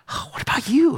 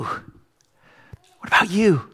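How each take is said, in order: First: Raised, probing question to the crowd; lifted, searching "what about you"; pointed question. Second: Hushed, drawn-out whisper; very slow breathy whisper of "What about you?". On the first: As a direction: turn it on them, up high. Pastor turns question on listeners. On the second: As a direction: lean in and breathe it to each listener. Repeated question, whispered slowly. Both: Acted.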